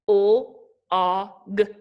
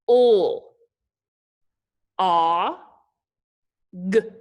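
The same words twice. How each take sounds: First: The sounds are said faster, with short gaps. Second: The sounds are said slowly, with long gaps.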